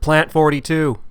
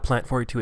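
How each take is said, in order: First: It is yelled loudly. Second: It is said at a normal, calm volume.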